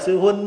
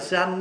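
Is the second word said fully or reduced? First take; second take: fully; reduced. First: The second word is said in full, carefully. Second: The second word is reduced in fast speech. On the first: "sư anh là sư huynh á" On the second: "mà nói nhanh là sư anh á"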